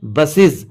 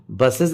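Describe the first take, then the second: First: Short i and buzzing z ending बसेस; correct "iz" ending. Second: An e vowel in the ending of बसेस; wrong "ez" ending. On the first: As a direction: say बसेस as "bus-iz". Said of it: "ES को इज पढ़ेंगे". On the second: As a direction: say बसेस as "bus-ez". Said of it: "नहीं होता". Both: Shown as a demonstration.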